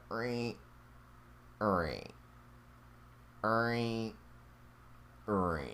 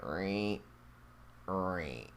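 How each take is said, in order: First: Soft rhythmic creak imitation; copying the creak sound he heard; imitating creaks. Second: Put-on copying the ghostly creak for his girlfriend; replicating creaks. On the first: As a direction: mimic a floorboard creaking, quietly. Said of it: "It was like a rhythmic creak". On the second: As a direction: mimic the floorboard creak quietly. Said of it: "I was replicating".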